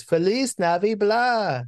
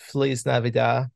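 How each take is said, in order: First: High, drawn-out botched greeting; Pee Wee Herman. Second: Said in the usual way. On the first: Retold or imitated. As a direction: mimic a goofy character fumbling NAVI BLAH, slow and pitched up. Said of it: "Like, he can't get it right". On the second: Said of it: "someone says".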